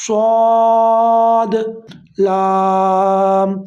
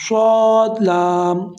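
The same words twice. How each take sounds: First: سواد and لام each said slowly and loudly, separated by a breath; correct, with a breath. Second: سواد لام run together without a breath; rushed wrong reading. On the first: Teacher showing students the correct breathed reading, slow and loud. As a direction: take a breath and give سواد لام each its own full length. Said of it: "اب اگر ہم سانس لیں گے تب اس کی ادائیگی ٹھیک ہوگی". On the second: Teacher showing students the common mistake, hurried. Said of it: "تو یہ غلط ہو جائے گا". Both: Shown as a demonstration.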